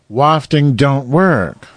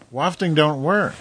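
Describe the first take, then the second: First: Louder and drawn out slowly; louder, slower. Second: Said in the usual way. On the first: Shown as a demonstration. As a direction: stress it, slow and loud.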